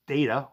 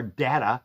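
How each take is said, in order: First: "data" with a long A, DAY-tuh; alternative pronunciation. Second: "data" with a short A, DAT-uh; alternative pronunciation. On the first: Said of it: "or data, as you like to say". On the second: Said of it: "as you like to say". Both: Shown as a demonstration.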